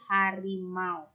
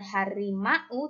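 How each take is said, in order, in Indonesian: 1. Bunyi a dan u meluncur bersama dalam satu tarikan napas. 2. Bunyi a dan u adalah dua vokal terpisah. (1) "diucapkan dalam sekali waktu, sekali nafas"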